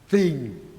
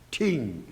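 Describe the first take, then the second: First: The word begins with a th sound. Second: The word begins with a plain t sound. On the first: It is the standard English pronunciation. "T H I N G, thing" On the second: It is how speakers without the th sound say it. "could not pronounce T H I N G"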